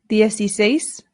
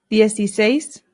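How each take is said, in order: No difference in how they are said.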